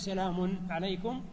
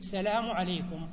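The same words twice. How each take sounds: First: Salam is said with a final n sound. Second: Salam is said without a final n sound.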